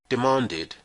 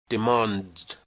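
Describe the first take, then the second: First: The ending is said as a separate syllable. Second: The ending is a bare sound, no extra syllable. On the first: The speaker calls it right. "so the simple past is pronounced demanded" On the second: The speaker calls it wrong. "It is not possible to pronounce"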